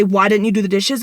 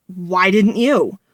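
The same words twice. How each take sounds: First: Said in the usual way. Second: Slow retort, landing on YOU with a falling tune; stress on YOU. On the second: Retold or imitated. Boyfriend turns the chore question back on her, YOU stressed. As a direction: throw it back with drawn-out YOU.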